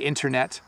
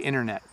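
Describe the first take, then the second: First: The T is clearly sounded. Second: The T is softened and barely heard. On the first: "when we are saying them properly" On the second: "when I'm talking quickly, I say internet"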